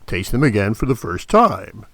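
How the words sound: The stress is on "time".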